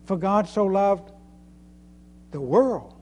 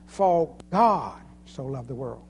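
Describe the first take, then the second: First: The word loved carries the main stress. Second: The word God carries the main stress. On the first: What was done was to love. "He loved us" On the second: It was God who loved. "It was God"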